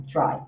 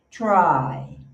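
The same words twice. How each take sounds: First: "try" said flat, the Brazilian way, with a lower pitch; the mistake: a closed, flat "try"; wrong way to say try. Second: "try" stretched slowly with an open diphthong; correct American try. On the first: Teacher shows students how not to say try. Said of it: "Você não fala assim". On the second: Teacher models the right try for students. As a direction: say "try" slowly, opening the vowel into a glide. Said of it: "então você faz um try". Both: Shown as a demonstration.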